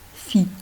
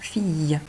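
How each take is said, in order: First: It ends on a plain 'ee' vowel. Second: It ends with a 'y' glide after the vowel. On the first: The speaker calls it wrong. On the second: The speaker calls it right.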